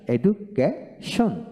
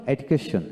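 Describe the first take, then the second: First: education slowly split as এডু, কে, শন; very slow, broken-up education; syllable by syllable. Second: Said in the usual way. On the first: Shown as a demonstration. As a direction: pause between the parts of education. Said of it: "অংশ একসাথে উচ্চারণ করা যায়". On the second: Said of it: "একসাথে উচ্চারণ করা যায়".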